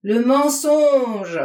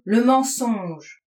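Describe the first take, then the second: First: Long, loud, higher-pitched yell; slow bellowed accusation; howled at full force. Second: Slow, drawn-out outburst; heavy, stretched-out denunciation; flung accusation. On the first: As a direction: stretch it into a roar. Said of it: "il hurla du plus fort qu'il pouvait". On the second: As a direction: hurl it in his face. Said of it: "il me lança dans la figure". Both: A narrator's reading.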